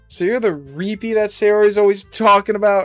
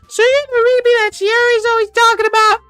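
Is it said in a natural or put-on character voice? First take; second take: natural; put-on. First: It is said in the speaker's natural voice. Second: It is said in a put-on character voice.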